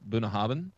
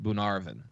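First: The middle is said with a clear 'hab' sound. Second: The middle is said with an 'arv' sound. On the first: The speaker calls it wrong. "I have pronounced it in the past Bunahabin because that's how it's spelled" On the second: The speaker calls it right. "It is actually pronounced Bunarvin"

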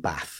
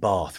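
First: It is said in the local, non-southern accent. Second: It is said in a southern English accent. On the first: This is the way the other children said it. "rather than bath" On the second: This is the way the speaker said it as a child. "I got bullied for saying bath"

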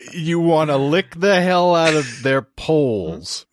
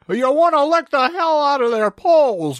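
First: It is said in the speaker's own accent. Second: It is said in an imitated put-on accent.

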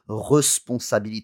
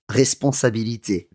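First: The first vowel sounds like a neutral schwa. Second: The first vowel sounds like a closed é. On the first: The speaker calls it wrong. "you would never say responsabilité" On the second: The speaker calls it right. "that sounds like an R-E acute"

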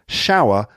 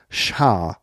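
First: The vowel glides through three sounds. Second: The vowel is flattened to one sound.

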